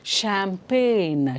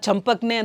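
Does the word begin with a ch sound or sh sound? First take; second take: sh; ch. First: It starts with sh and drops the g. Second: It starts with ch and sounds the g. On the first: The speaker calls it right. "This is pronounced as ಶ್ಯಾಂಪೇನ್" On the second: The speaker calls it wrong. "ಚಂಪಕ್ನೆ ಅಂತ ಹೇಳ್ತೀರಾ?"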